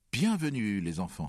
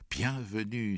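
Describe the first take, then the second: First: High, loud welcome that falls away; father's welcoming cry. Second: Higher, mildly raised exclamation; mother's welcoming cry. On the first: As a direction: call out a big hearty welcome to the children. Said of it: "s'écria père". (cri de bienvenue du père, fort et aigu) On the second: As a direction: call out a welcome, a touch less forceful. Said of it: "s'écria mère". (exclamation de bienvenue de la mère) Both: A narrator's reading.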